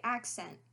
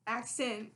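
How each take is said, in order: First: "accent" in a Maryland accent, ending in "ent". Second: Put-on "accent" said as "ac-sin", lightly Southern; Southern-tinged "accent", last syllable "sin"; imitated Southern accent. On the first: Shown as a demonstration. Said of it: "with an ent". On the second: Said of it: "but you say in".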